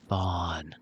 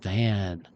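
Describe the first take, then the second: First: The vowel sounds like the one in 'dawn'. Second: The vowel sounds like the one in 'can'. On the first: The speaker calls it right. "but Vaughn" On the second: The speaker calls it wrong. "Some people might mispronounce it"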